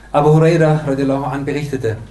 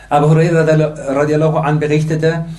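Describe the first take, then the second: Both takes have the same delivery.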